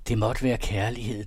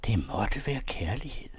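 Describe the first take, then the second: First: Slow, leaning on være, falling; slow and weighty. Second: Drawn out slowly, rising at the end; very slow, wondering. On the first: Narrator musing on the couple, slow and falling. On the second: Narrator echoing the line, very slow and rising. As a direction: let være hang, slow, ending on a rise. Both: A narrator's reading.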